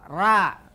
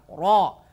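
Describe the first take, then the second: First: The r is pronounced light and thin. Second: The r is pronounced heavy and full. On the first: The speaker calls it wrong. "bukan ra" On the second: The speaker calls it right. "dibaca ro"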